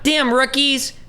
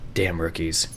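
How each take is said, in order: First: The voice is high-pitched and bright. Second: The voice is low, flat and weary. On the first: The speaker calls it wrong. "Not like high pitched" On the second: The speaker calls it right. "He'd be like more like, like depressed"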